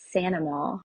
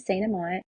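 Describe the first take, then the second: First: The name is said the Cajun way, as Sanama. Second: The name is said the anglicized way, as spelled.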